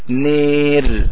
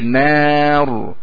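First: The vowel is tilted toward i. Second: The vowel is a plain open a. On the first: The speaker calls it wrong. "لو أملت قلت نير" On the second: The speaker calls it right. "أما هذه نار"

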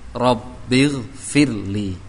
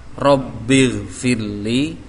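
First: The two words are joined into one word. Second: The two words are joined into one word.

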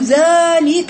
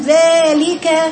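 First: The first sound is heavy and darkened. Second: The first sound is overly thin, jaw spread wide. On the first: "تحول من الترقيق إلى التفخيم" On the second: "مبالغة في ترقيق الذال"

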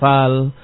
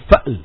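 First: It is said without a glottal stop. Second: It is said with a glottal stop. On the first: The speaker calls it wrong. "jangan dibaca fal, bukan fal" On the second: The speaker calls it right. "tetapi ini fa'l. Mahmuz"

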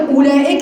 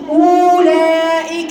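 First: The first vowel is short, without a long u. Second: The first vowel is a drawn-out long u. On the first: The waw is silent. The speaker calls it right. "لو كانت متنطق ما كانتش هتتنطق أولئك" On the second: The waw would be pronounced. The speaker calls it wrong. "كانت هتتنطق أولئك"

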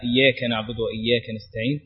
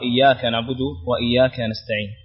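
First: The first word is said with a dialect ya sound. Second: The first word is said in classical recitation form. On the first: The speaker calls it wrong. "قد تنطق بيا" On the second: The speaker calls it right. "فتقرأ"

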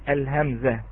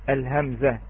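No difference in how they are said.

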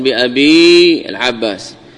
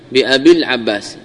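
First: The final vowel of abi is held long. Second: A short i runs straight into al-Abbas. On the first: The speaker calls it wrong. "لا تقل بأبي العباس" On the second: The speaker calls it right. "باء مكسورة ثم يأتي العباس"

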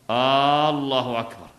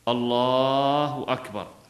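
First: The opening vowel of the first word is lengthened. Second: The l sound in the first word is lengthened. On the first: It becomes a question. The speaker calls it wrong. "لا إن مد الهمزة ... فصارت استفهاما" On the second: It is a statement that God is greatest. The speaker calls it right. "هذا مد اللام، يجزئ"

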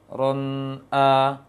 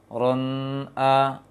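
Both takes have the same delivery.

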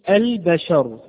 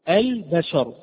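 The two takes are said the same way.

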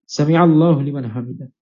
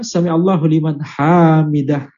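First: The vowels in the last word are short. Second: A vowel in the last word is long. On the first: The speaker calls it right. "maka wajib untuk mengucapkan" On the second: The speaker calls it wrong. "Dan tidak boleh dibaca"

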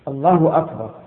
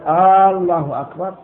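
First: No vowel is drawn out unusually long. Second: The opening vowel of the first word is lengthened. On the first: The speaker calls it right. "ويشترط الترتيب بين الكلمتين" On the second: The speaker calls it wrong. "أن لا يمد الهمزة لا في الجزء الأول منها"

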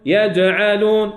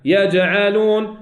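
The two takes are said the same way.

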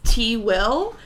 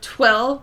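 First: It is split into two separate parts. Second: It is said as one single syllable. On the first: The speaker calls it wrong. "people don't know how to pronounce it, so they always think it's T-Will" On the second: The speaker calls it right. "it's just one word, twill, like trill with a W"

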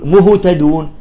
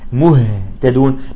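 First: The h is said with rounded lips. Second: The h is said with unrounded lips. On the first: The speaker calls it wrong. "فيلحق الضم بالهاء" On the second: The speaker calls it right. "الأصل أن يقول مهتدون"

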